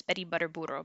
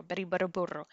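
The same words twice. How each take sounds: First: Quietly repeating "Betty Butter Burro", tongue in rolling position; soft drill. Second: Quietly repeating "Betty Butter Burro" once more; soft drill. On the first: Teacher quietly drilling a tongue twister for learners. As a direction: murmur it softly as practice. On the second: Teacher softly repeating the drill, a bit quicker. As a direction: say it softly, tongue ready to roll. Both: Shown as a demonstration. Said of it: "Say it faster and faster".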